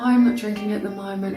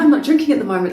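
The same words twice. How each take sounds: First: It is said hesitantly, with little energy. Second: It is said confidently, with lots of energy. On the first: The speaker is unsure about the choice. The speaker calls it wrong. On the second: The speaker is sure about the choice. The speaker calls it right.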